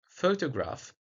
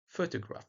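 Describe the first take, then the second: First: All vowels are full and distinct. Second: Unstressed vowels are reduced to schwa.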